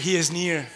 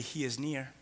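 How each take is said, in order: First: Firm declaration. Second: Soft affirmation. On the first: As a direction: proclaim "He is near" firmly to the room. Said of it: "Say it". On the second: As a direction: quietly, close and low, "He is near". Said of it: "Just look at them and say". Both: Shown as a demonstration.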